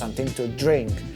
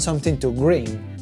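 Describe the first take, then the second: First: The last word sounds like drink. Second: The last word sounds like green. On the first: This is what was meant. The speaker calls it right. "lo que este muchacho quería preguntar" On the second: Someone else said it with a hard-to-understand accent. The speaker calls it wrong. "él lo preguntó como"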